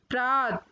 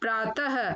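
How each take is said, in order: First: The word ends without a final breath. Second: The word ends with a breathy 'h'. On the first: The speaker calls it wrong. "पहले number पर अशुद्ध शब्द" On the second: The speaker calls it right. "फिर उनका शुद्ध उच्चारण"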